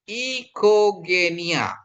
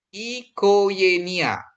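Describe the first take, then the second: The two takes are said the same way.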